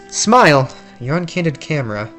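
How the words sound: The put-on character voice is a close imitation. The speaker calls it right. "that's closer to it"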